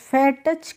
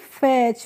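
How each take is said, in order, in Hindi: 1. इस शब्द में ch से पहले एक अलग t है। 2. यह शब्द एक सिलेबल का है, जो ch पर खत्म होता है। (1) "करके नहीं पढ़ेंगे" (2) "इसीलिए इसको हम पढ़ेंगे फैच"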